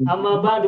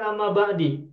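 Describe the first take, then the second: First: The second word ends in a u vowel. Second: The second word ends in an i vowel. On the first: The speaker calls it right. "Amma ba'du bukan amma ba'da, bukan amma ba'di" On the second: The speaker calls it wrong.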